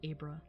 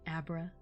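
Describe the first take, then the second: First: It sounds like the start of Abraham. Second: It sounds like the start of abracadabra. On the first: "like Abraham?" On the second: "Like abracadabra"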